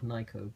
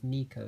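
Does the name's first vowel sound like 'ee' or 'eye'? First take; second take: eye; ee. First: The first vowel sounds like 'eye'. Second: The first vowel sounds like 'ee'. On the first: The speaker calls it right. "it is clearly Nyko as it is on the box itself" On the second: The speaker calls it wrong. "some people will pronounce the company's name as Nico"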